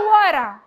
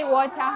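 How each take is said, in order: First: American "water" with the t softened to an r; American accent. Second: Said in the usual way. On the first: Shown as a demonstration. Teacher showing pupils how Americans say it, American accent. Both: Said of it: "how do the Americans say water".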